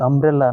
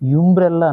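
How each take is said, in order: First: The word begins with a plain vowel. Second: The word begins with a y-sound. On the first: The speaker calls it right. "అంబ్రెల్లా అన్నది" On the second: The speaker calls it wrong. "ఇది యుంబ్రెల్లా అనకూడదు"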